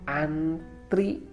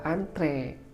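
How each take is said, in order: First: The word ends with an ee vowel. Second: The word ends with an eh vowel. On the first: The speaker calls it wrong. "sering kita tidak sadar akan kata ini atau pengucapannya" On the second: The speaker calls it right. "Seharusnya ialah antre"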